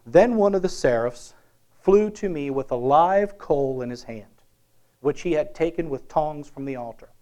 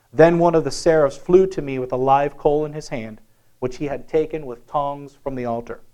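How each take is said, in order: The two takes are said the same way.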